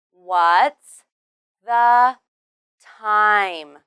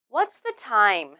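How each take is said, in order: First: Slow, louder, each word separated. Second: Said in the usual way. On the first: Shown as a demonstration. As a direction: isolate every word for learners. Word-by-word pronunciation demo for learners.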